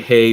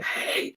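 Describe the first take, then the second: First: It is said in a normal voice. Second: It is said in a hoarse whisper.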